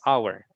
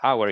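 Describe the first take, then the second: First: The word begins with an open vowel. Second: The word does not begin with a vowel. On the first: The speaker calls it right. "the first is a" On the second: The speaker calls it wrong. "It's not hour"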